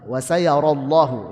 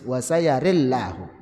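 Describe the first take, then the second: First: Open ra vowel, heavy lam. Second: Tilted ra vowel, light lam. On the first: "ra-nya dibaca fathah, kemudian lamnya tebal" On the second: "ra-nya dibaca imalah dan lamnya tipis"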